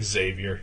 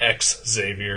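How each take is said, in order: First: The name begins with a z sound. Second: The name begins with an ex sound. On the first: The speaker calls it right. "It's fucking Xavier" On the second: The speaker calls it wrong. "It's not X Xavier"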